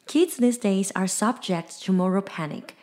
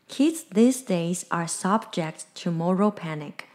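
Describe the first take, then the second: First: It is said at a normal speed. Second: It is said slowly and carefully.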